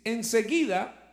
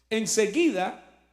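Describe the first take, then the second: First: Said in the usual way. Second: Enseguida drawn out slowly and leaned on; slow stressed enseguida. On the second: Shown as a demonstration. Preacher re-reading Enseguida to the congregation, slow and stressed. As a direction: linger on Enseguida, slowly and firmly. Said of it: "¿no?".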